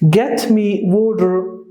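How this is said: The t in water is softened into a flap. "That is the American"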